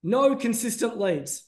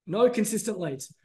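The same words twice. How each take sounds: First: "No consistent leads" drawn out slowly, leaning on "No"; slow, weighty naming of the headache; slow and deliberate. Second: Said in the usual way. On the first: Shown as a demonstration. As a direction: read out each word slowly like a headline. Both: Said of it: "and I go".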